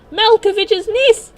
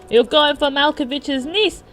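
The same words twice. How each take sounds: First: Very high, loud, stretched-out shriek; full scream in accent. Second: High, loud character outrage; screaming in accent. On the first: John at a catcaller, escalating outraged scream. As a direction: blow up on the words, drawn out slowly. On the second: John at a catcaller in a car, outraged accent. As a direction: confront him in a raised, peculiar accent. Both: Acted. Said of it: "screaming at him in that peculiar accent".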